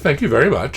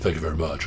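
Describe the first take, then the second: First: Said in a high voice with exaggerated pitch swings. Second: Said in a low voice with little pitch movement. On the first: "It's more like" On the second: "[name]'s going to go"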